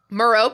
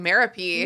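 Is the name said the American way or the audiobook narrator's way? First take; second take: American; narrator's way. First: The name is said the American way. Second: The name is said the narrator's way, rhyming with therapy. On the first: The speaker calls it wrong. "That's how I've said it my whole life. ... me too" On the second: The speaker calls it right. "I got the Jim Dale in my ears going Merapy, ... obviously so much more beautiful"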